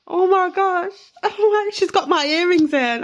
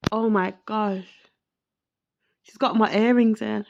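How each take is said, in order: First: Much higher and louder, laughing in disbelief; overwhelmed, laughing. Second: Said in the usual way. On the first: Real, not acted. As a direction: burst out with real emotion and a laugh. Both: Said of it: "I'm so emotional right now".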